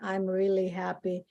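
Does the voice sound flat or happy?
flat. It is said flatly, without expression. The speaker does not sound truly happy. The speaker calls it wrong. "It's very unnatural. It's like you don't convince your the person that you're talking to that you're happy"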